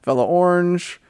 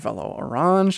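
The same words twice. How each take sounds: First: The name is said in a plain, everyday way. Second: The name is said in a fancy, affected way.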